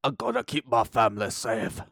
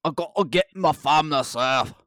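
First: Put-on a clumsy, half-hearted Irish accent, like a movie hero; mock Irish accent that keeps slipping; mocking the trailer hero in a poor Irish accent; bad Irish accent. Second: Put-on a better Scottish accent, pitched higher and pushed louder; mock Scottish movie hero, committed; redoing the trailer line in a truer Scottish accent. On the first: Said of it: "That's a horrible Irish accent". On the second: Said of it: "That was better".

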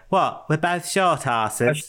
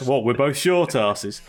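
First: Slow, lightly voiced Beckham drawl; a hint of Beckham, stretched out; mock footballer voice; David Beckham impression. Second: Said in the usual way. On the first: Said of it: "in his David Beckham". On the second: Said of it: "and he goes".

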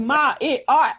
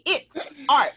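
First: "it" with no S before "art"; Mercedes. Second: "it's art", slow, with the S sounded on "it's"; corrected pronunciation. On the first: Retold or imitated. Mocking the show's Southern accent, "it" missing its S. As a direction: say "Ma, it art", leaving the S off "it". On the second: Shown as a demonstration. Coaching the actress on the line, S sounded in "it's". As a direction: put a clear S on the end of "it's". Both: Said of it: "put that S on the end of that".

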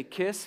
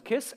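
First: Said in the usual way. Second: A high, clipped little bird "Kiss"; parrot imitation. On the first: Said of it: "If you say". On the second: Dad imitates the pet bird Chewie, light parrot voice. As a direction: squeak "Kiss" like the parrot would. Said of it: "and he goes".

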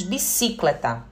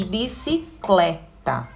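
First: Bicicleta as biCÍcleta, stressed on the second syllable. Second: Bicicleta slowly, stressed on CLE, bici-CLÉ-ta. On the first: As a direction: lean on CI in bicicleta. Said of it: "nós também não pronunciamos". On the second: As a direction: break up bicicleta and lean on CLE. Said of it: "a sílaba tônica vai ser o clé". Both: Shown as a demonstration.

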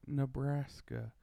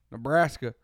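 First: "Nebraska" slow and soft, evenly pronounced; careful, measured "Nebraska", nuh-BRASS-kuh; normal pronunciation. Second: Loud, quick Texan "Nebraska"; mock Texan "Nebraska", hard on BRAS; Texan pronunciation. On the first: Retold or imitated. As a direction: say "Nebraska" slowly and neutrally. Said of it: "somebody normal pronounce all the words". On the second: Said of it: "a Texan comes in and pronounces it".

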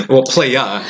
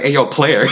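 First: "playa" said with a dropped r, ending in ah; corrected to playa. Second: "player" said fully, with the r; "player" pronounced with a clear ending r; wrong take, player. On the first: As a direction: say "playa" like slang, no r at the end. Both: Shown as a demonstration. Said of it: "Let me, let me correct it".

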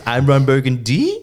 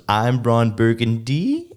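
First: BURGUNDY pushed high into a baffled question; emphatic anchorman read, BURGUNDY rising sharply as a question; louder questioning rise. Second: BURGUNDY drawn out and rising like a question; slow anchorman read with BURGUNDY going up at the end; questioning rise. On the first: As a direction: repeat it higher, with a big upward swing on BURGUNDY. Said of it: "question mark on a teleprompter". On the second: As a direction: read it slowly, lifting BURGUNDY into a puzzled question. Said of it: "If you put a question mark on a teleprompter". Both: Retold or imitated.

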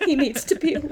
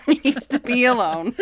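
First: Higher, louder mocking narrator; mock quote. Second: Repeating the line through laughter; laughing. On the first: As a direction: parody the book's solemn line. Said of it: "quoting the book mockingly". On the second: Retold or imitated. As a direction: crack up while you quote it. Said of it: "repeating it laughing".

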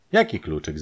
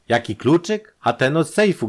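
First: Said in the usual way. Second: High, loud, rising „Jaki kluczyk“; exasperated echo. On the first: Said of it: "zapytała Maria". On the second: A narrator's reading. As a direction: throw the question back in agitation. Robbed brother throws her question back.

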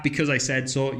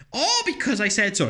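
First: Said in the usual way. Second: High, dismissive parent voice on "Oh, because I said so."; mock parent brush-off. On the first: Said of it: "If you ever use that". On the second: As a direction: mimic a lazy parent shutting a child down. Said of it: "make up some bullshit of".

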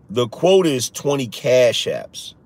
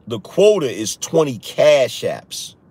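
First: Said in the usual way. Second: The quota is twenty Cash Apps, said slowly and deliberately; slow, firm emphasis. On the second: Real, not acted. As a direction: spell out the rule word by word.

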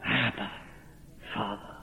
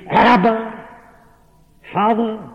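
First: Much softer and lower, barely breathed; hushed cry. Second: Elemental cry. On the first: Preacher voicing the believer's cry, hushed and low. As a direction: murmur it in awe and reverence. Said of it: "whereby we cry". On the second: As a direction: cry it out from the depths of the soul. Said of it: "produced this elemental cry". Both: Acted.

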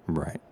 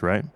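First: Soft, low, falling "right"; much softer and lower, with a falling end; quiet self-answer. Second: RIGHT rising as a question. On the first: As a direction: answer yourself under your breath, dropping away. Answers his own question, resigned. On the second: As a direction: say "right" with an upward, checking lift. Asks himself for reassurance. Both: Real, not acted.

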